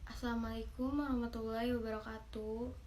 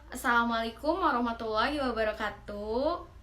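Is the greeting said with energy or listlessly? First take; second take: listless; energetic. First: It is said listlessly, without power. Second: It is said with power and energy.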